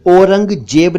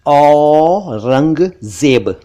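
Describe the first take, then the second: First: "औरंगजेब" mispronounced "orang-jeb", higher pitch; wrong o and j. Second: "औरंगजेब" very slowly, long open au and z; correct au and z. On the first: Teacher rejects wrong emperor's name, o sound. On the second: Teacher corrects emperor's name, drawn-out au. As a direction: stretch "औरंगजेब" as "awww-rang-zeb". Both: Shown as a demonstration. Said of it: "औरंगजेब नहीं".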